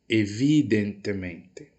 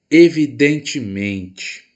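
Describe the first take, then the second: First: Evidentemente with crisp Spanish "te", VI lifted; Spanish pronunciation. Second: Evidentemente slow and loud, Brazilian "tchi" for both te; Portuguese pronunciation. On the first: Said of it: "ao pronunciar em espanhol fica". (evidentemente em espanhol, com o VI forte) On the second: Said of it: "vi como sílaba mais forte". (evidentemente em português, devagar e forte) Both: Shown as a demonstration.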